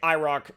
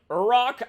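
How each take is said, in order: First: The name begins with an 'eye' sound. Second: The name begins with a 'you' sound. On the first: "I guess you could say I ROC" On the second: "this is more like Urok, I guess, is how you would pronounce it"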